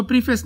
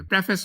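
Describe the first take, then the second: First: प्रीफेस with a long "pree" first syllable; प्रीफेस opening on a long ee vowel; wrong pronunciation. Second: प्रेफेस with a short "preh" first syllable; प्रेफेस opening on an e vowel; correct pronunciation. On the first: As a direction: misread it as प्रीफेस, "PREE-fess". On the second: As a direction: say प्रेफेस as "PREF-ess", not "pree". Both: Shown as a demonstration. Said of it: "इसको प्रीफेस नहीं पढ़ेंगे".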